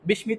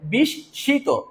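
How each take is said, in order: First: The m is pronounced clearly after the s. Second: The s is doubled and nasalized without m. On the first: The speaker calls it wrong. "বিস্মিত বলা যাবে না" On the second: The speaker calls it right. "এই জন্য এটা হবে বিস্মিত"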